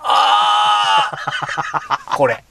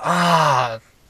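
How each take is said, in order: First: It sounds intensely pleased. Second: It sounds mildly pleased.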